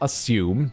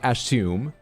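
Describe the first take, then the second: First: The double s sounds like a plain s. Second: The double s sounds like sh. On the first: This is how the speaker normally says it. "I say assume" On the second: This is how an Australian speaker said it. "not assume"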